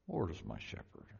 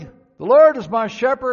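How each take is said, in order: First: It is muttered quietly under the breath. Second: It is said loudly, like a shout.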